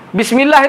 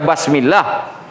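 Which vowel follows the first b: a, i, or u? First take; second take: i; a. First: The first vowel is an i sound. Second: The first vowel is an a sound. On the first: The speaker calls it right. "sudah ditulis barisnya" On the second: The speaker calls it wrong. "Apa mau dibaca basmillah"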